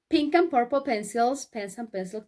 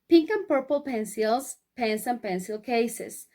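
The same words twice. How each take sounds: First: It is said at a very quick pace. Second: It is said at a fairly quick pace. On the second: "vamos a decirlo más rápido"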